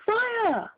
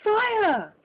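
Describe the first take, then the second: First: High, shrieking cry; shriek of fire. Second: High, loud alarm cry; cry of fire. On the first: Crowd of spectators shrieking in panic, high. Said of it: "joined in a general shriek of". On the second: Narrator tossing the rocket, yelling loudly to the room. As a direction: raise the alarm with a yell. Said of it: "with a cry of". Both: A narrator's reading.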